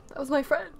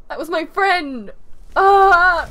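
First: Mildly upset, questioning protest; sad. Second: Loud, drawn-out wail of loss; emotional outcry. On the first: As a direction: say it with a touch of hurt disbelief. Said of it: "I'm, I'm actually sad". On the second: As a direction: cry it out, dragging the words, upset. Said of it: "Oh, I'm emotional". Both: Real, not acted.

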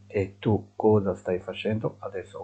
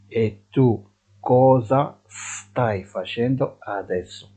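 First: Said in the usual way. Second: Slow, clear Italian model phrase; drawn out for learners to repeat; deliberate dictation pace; slow teaching model. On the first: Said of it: "repeat at normal pace". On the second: Shown as a demonstration. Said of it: "teacher models slowly".

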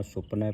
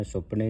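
First: ਸੁਪਨਾ said with the ending the teacher prescribes; correct reading. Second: ਸੁਪਨੇ ending on a closed e; the incorrect ਸੁਪਨੇ, sup-ne; wrong reading. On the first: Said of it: "ਸੁਪਨਾ ਪੜ੍ਹਨਾ ਹੈ". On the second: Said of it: "ਸੁਪਨੇ ਨਹੀਂ ਪੜ੍ਹਨਾ". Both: Shown as a demonstration.

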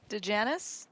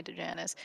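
First: Said in the usual way. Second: A quiet playful take on Dejanis; special way of saying a name. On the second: Shown as a demonstration. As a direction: drop the voice and stretch out Dejanis. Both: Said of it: "I'm gonna say your name that way".

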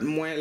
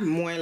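First: Moins with a nasal vowel, mwɛ̃; moins as minus. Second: Moins said like moi, the word for myself, with no nasal. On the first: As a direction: say moins through the nose, not as moi. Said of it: "but moins like minus". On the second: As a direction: say moins as plain mwa, an open vowel. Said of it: "Not moins like myself". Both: Shown as a demonstration.

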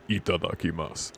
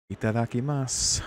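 First: Lower-key, mock-intense itadakimasu. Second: Slightly menacing, raised-pitch itadakimasu; scary itadakimasu. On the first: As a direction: imitate a grimly intense grace before eating. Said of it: "Just intense as fuck". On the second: Acted. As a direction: say grace with mock menace. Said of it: "that was the scariest itadakimasu".

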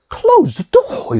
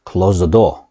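First: Much higher, slow and drawn out with strong emotion; with feeling. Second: Said in the usual way. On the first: Shown as a demonstration. Teacher shows students an emotional command, said high and drawn out. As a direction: stretch it out, make it an urgent exclamation. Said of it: "느낌을 넣어서 얘기할 때". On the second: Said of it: "이렇게 평범하게 얘기할 수도 있지만".

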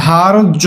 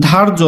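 First: ধার্য split into "dhaar-jo"; as spoken. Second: ধার্য run together as "dharjo"; as written. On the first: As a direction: say ধার্য in two drawn syllables, hard j. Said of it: "কিন্তু আমরা বলি কি". (ধার্য ভেঙে "ধার্-জো" উচ্চারণ) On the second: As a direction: say ধার্য quickly as one word. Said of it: "ধার্য আছে". (ধার্য একটানা উচ্চারণ) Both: Shown as a demonstration.

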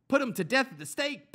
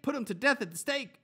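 First: High, loud furious yell; mob yell. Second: High, loud chant of the demand; repeated mob yell. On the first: Crowd yelling at Pilate for execution, high and loud. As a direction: scream for his death. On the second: Crowd repeating its demand to Pilate, high and loud. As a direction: yell it once more as the mob. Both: Acted. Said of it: "they yelled".

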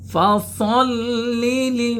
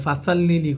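First: ফাসল্লি said fasalli, no vowel between s and l; correct fasalli. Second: ফাসাল্লি with an extra a after s; the common mistake ফাসাল্লি, a drawn in; wrong fasaalli. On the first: Teacher shows the right ফাসল্লি, not fasal. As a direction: say ফাসল্লি with a tight doubled l. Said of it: "ফাসল হবে". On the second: Teacher mimics the students' wrong ফাসাল্লি. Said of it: "এটা কিন্তু ভুল". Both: Shown as a demonstration.

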